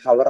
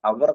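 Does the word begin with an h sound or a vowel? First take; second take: h sound; vowel. First: The word begins with an audible h sound. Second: The word begins directly with a vowel sound. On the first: The speaker calls it wrong. "ഒരിക്കലും ഹവർ എന്നല്ല" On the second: The speaker calls it right. "അവർ എന്ന് മാത്രമേ പറയുള്ളൂ. H അവിടെ silent ആയിരിക്കും"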